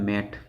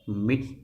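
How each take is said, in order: First: The vowel is an a sound. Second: The vowel is an ee sound. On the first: The speaker calls it wrong. "अपन थोड़ी पढ़ते हैं मैट" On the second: The speaker calls it right. "इसको क्या बोलेंगे"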